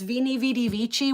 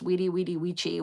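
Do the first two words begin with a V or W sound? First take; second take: V sound; W sound. First: The first two words begin with a V sound. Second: The first two words begin with a W sound. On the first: The speaker calls it wrong. "I like it better with the V sound, so I still mispronounce it on purpose" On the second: The speaker calls it right. "which is actually pronounced"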